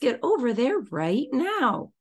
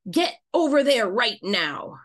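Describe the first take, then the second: First: The voice sounds light and playful. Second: The voice sounds harsh and stern. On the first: "And maybe get to a green tone of voice" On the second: "let's say it in a red tone of voice"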